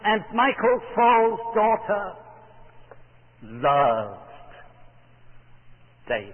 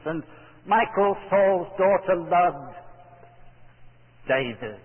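First: The word loved is stressed. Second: The word David is stressed. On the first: Her love for him was deep and intense. "To emphasize the depth and intensity of her passion" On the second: It was exactly this man whom she loved. "would you emphasize the last word in the sentence"

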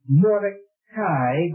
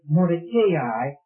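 First: The name is pronounced in a Hebrew style. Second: The name is pronounced in an English style. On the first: "if you look at it in the Hebrew, it's Mordecai" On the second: "the English pronunciation, they tell you to give it Mordecai"

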